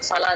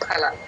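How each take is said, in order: First: The first sound is an f, not aspirated. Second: The first sound is an aspirated p. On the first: The speaker calls it wrong. "ఫల కాదు" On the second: The speaker calls it right. "పాకి మహాప్రాణ పెడితే ఎలా పలుకుతాం పా ఫ అంటాం కదా అలాగే పలకాలి"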